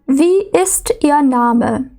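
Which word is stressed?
ist. The stress is on the word ist. A plain question asking for the name. "У W-Fragen зазвичай наголошується дієслово і інтонація йде вниз"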